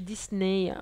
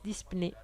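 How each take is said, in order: First: The word is said without a P sound. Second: The word is said with a P sound. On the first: "en anglais on ne dit pas le P" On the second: "en portugais on prononce le P"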